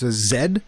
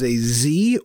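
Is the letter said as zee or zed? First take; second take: zed; zee. First: The letter is said the Canadian way, zed. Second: The letter is said the American way, zee.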